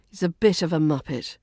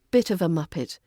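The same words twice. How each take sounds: First: Quick, like stating a dull fact; clipped, flat intonation. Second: Said in the usual way. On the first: Shown as a demonstration. Teacher demonstrating a mild British insult, quick and clipped. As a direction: rattle it off matter-of-factly. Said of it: "use some flat intonation".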